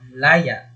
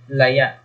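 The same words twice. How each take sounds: First: Stress on the first syllable, glottal catch ending. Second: Stress on the last syllable, glottal catch ending. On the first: Liberty. "sa malumi, pagbigkas natin ay ganito" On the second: Wild, or withered. "maragsa... parang may glottal stop"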